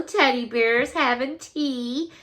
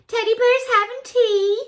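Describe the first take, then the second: First: Said in the usual way. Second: High, cutesy squeal; cutesy delight. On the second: Real, not acted. Showing viewers teddy bears having tea, cutesy delight. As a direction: coo it high, delighted by the cuteness. Repeats it, cooing at the card.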